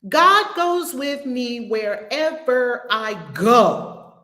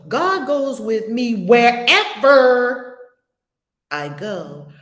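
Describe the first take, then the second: First: The stress falls on the final word go. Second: The stress falls on the word wherever.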